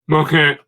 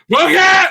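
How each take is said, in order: First: It is said quietly and weakly. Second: It is said loudly and forcefully.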